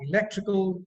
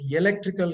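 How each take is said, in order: First: ELECTRICAL starting on a clean short 'i'; correct pronunciation. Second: ELECTRICAL with a 'y' glide in front, "yelectrical"; wrong pronunciation. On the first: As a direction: say ELECTRICAL as "i-LEK-tri-kal", no 'y' glide. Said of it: "Electrical is wrong". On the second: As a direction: mispronounce ELECTRICAL as "ye-lectrical". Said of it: "is wrong". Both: Shown as a demonstration.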